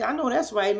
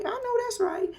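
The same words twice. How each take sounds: First: Said in the usual way. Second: I know that's right squeaked very high; high squeal. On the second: Retold or imitated. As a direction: squeal it up high like a hype girl. Repeated cheer, high second take.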